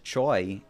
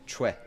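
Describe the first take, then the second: First: The name is said the English way, like 'choy'. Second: The name is said the Korean way, like 'chweh'. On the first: The speaker calls it wrong. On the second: The speaker calls it right.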